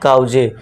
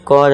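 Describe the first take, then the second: First: The vowel is 'ow' with an added final vowel. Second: The vowel is 'aw' with no final vowel. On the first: The speaker calls it wrong. "ना कि काउजे" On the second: The speaker calls it right. "कॉज ना कि काउजे"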